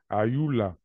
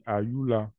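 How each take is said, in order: First: The name is said as a call to someone. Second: The name is said in a plain referring tone. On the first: Someone is calling her directly. "quand on l'interpelle, elle est là devant nous et puis l'appelle" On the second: Someone is talking about her. "Quand on parle d'elle, on dit Ayula"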